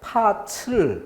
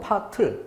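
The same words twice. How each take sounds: First: The final t sound turns into ch. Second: The final t sound carries over unchanged. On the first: The speaker calls it wrong. "이렇게 잘못된 발음이 나오는 것은 구개음화쯤으로 착각하는 데서" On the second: The speaker calls it right. "그대로 넘겨주기만 하면 되는데"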